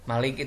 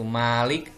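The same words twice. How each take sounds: First: The first vowel is short. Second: The first vowel is long. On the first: It means king. "jika dibaca pendek tadi bermakna raja" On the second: It means owner. "jika dibaca panjang"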